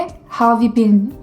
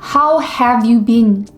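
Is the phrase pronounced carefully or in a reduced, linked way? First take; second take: reduced; carefully. First: The words are reduced and run together. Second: Each word is pronounced fully and separately. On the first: This is how native speakers actually say it. "이렇게 발음을 하는 거야" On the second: This is how a learner expects it to sound. "이잖아"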